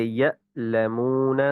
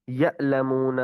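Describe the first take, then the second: First: یعلمون with a light catch in the throat, body still; teacher models یعلمون slowly, the hamza caught only in the throat; correct hamza. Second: یعلمون with a heavy jolt that shakes the body; wrong hamza. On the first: Teacher showing students the right hamza: slow, throat-only catch. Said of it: "جیسے یعلمون". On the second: Teacher shows the mistake: the whole body jolts. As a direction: overdo the hamza in یعلمون with a hard push from the belly. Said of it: "اس طرح جھٹکے سے پڑھنا ... جس سے ناف ہلے". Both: Shown as a demonstration.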